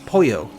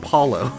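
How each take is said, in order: First: The middle consonant is a y sound. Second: The middle consonant is an l sound. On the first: The speaker calls it right. "it's like Poyo. that's not great, but it's, it's like that. That's that's closer" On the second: The speaker calls it wrong. "like Apollo, like the god Apollo, but like without the A. But I know that's wrong"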